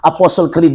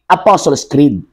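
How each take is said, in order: First: Apostle is said without a final s sound. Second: Apostles is said with a final s sound. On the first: Someone else stumbled over the title. The speaker calls it wrong. "Nagkabuli-buli pa siya og pronounce niya" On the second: This is the title as printed on the book. The speaker calls it right. "Pero ang libro, mao ni"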